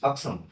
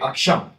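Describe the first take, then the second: First: The middle consonant is an s sound. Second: The middle consonant is an sh sound. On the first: This is the intended company name. The speaker calls it right. "no, no, it's Aksam" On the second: Someone from another region mispronounced it. The speaker calls it wrong. "generally these people say sure instead of sir"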